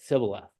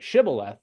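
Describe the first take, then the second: First: The word begins with an s sound. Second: The word begins with an sh sound. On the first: The speaker calls it wrong. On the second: The speaker calls it right.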